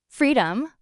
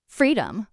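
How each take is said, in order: First: Mildly sharp echo on FREEDOM, as a question; understated sharp challenge on "Freedom?"; rising, sharp. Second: Said in the usual way. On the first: A narrator's reading. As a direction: throw "Freedom?" back in disbelief, voice lifting. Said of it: "My voice rose, sharp and jagged".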